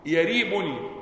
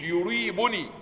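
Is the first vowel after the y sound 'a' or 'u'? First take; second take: a; u. First: The first syllable is said with an 'a' vowel. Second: The first syllable is said with a 'u' vowel. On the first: The speaker calls it right. "بفتح الياء" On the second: The speaker calls it wrong. "مش يريبني"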